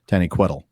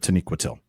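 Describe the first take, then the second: First: The stress falls in an Aztec-like place. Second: The stress falls in the standard place. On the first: The speaker calls it wrong. "I lovingly call it the Aztec pronunciation" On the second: The speaker calls it right. "instead of"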